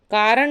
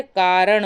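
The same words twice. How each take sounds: First: कारण ending in dental n, "kaaran"; plain n at the end of कारण; wrong form. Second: कारण ending in retroflex ṇ; correct form. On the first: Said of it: "कारण नहीं होता है". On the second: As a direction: curl the tongue to end कारण. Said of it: "कारण होता है". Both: Shown as a demonstration.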